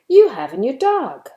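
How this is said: It is said with a surprised tone. The speaker did not expect this. "to express your surprise"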